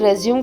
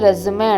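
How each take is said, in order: First: The word ends on the final m sound. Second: The word ends with an added ay vowel. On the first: The speaker calls it wrong. "అది రెజ్యూమ్ కాదండి" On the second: The speaker calls it right. "దాన్ని రెజ్యూమే అంటారు"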